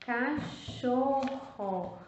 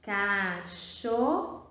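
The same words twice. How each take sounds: First: "Cachorro" drawn out with a falling tune; slow, falling reading. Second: "Cachorro" stretched very slowly; drawn out slowly. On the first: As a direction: say "Cachorro" slowly, settling on it. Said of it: "Olha só a palavra cachorro". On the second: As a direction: sound out "Cachorro" slowly for kids. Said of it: "Ficou como?". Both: Shown as a demonstration.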